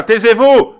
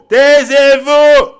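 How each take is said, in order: First: Loud, high command to be silent; angry shout. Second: Very high, loud, every syllable stretched; drawn-out yell. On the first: Viewers rebuke the inventors of lies, shouted order. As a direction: shout it at the liars. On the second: Rebuking inventors of lies a second time, long drawn-out yell. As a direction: yell it slowly, holding the vowels. Repeats the order, bigger and stretched. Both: Acted.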